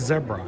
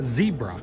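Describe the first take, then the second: First: Zebra is said in the non-American pronunciation. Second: Zebra is said in the American pronunciation. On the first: This is how people in other countries say it. The speaker calls it right. "Everyone else pronounces it zebra" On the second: This is how people in the United States say it. The speaker calls it wrong. "we're the only country in the entire earth that pronounces it zebra"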